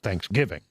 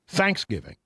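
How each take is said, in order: First: The stress is on the later syllables. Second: The stress is on the first syllable. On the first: This is the way others say is correct. The speaker calls it right. "But I'm I'm told now it's it's Thanksgiving" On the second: This is a Texan way of saying it. The speaker calls it wrong. "Texans often put the emphasis on the first syllable"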